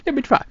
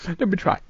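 First: Said in the usual way. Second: Said quieter and lower; softer, lower take. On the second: Shown as a demonstration. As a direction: drop the voice down.

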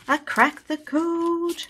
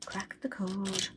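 First: Slow, much higher, delighted cry of "code"; excited. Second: Much softer, slow murmur of "Cracked the code"; quiet echo. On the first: Saver announcing her win to viewers, slow excited cry. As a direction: stretch out "code" in triumph. Just cracked the savings code. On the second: Saver repeating her win to herself, soft murmur. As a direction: say it again under her breath, pleased. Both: Real, not acted.

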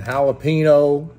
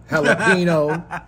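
First: Jalapeno said as hal-a-PEE-no, English style. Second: Jalapeno said slowly, laughing, as the family says it; jalapeno with a hard j. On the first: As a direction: say jalapeno the Spanish way, h sound, pee-no. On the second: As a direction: stretch out jalapeno with a laugh, the home way. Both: Shown as a demonstration. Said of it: "Not jalapeno, jalapeno".

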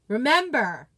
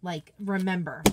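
First: Remember said louder, pressed hard with a falling end; emphatic remember. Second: Said in the usual way. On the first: Shown as a demonstration. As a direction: drive the word Remember home like a reminder to yourself.

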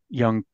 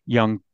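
Both takes have the same delivery.

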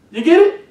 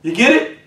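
First: Pitched up high, asking the crowd; preacher calling out to the congregation; high rising question. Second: Said in the usual way. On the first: Real, not acted. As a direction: lift You get it up high to pull them in. Preacher checks understanding.

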